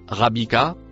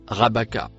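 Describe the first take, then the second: First: The second syllable has the vowel i. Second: The second syllable has the vowel a. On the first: The speaker calls it wrong. "et non rabika, comme falsifié grâce aux voyelles" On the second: The speaker calls it right. "se prononce rabaka"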